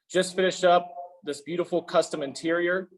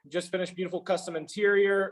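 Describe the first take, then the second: First: It is read slowly and deliberately. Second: It is read at a normal pace.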